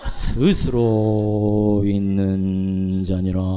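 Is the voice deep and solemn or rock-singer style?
deep and solemn. A lowered, slow, solemn voice. "그것처럼 여호와의 목소리도"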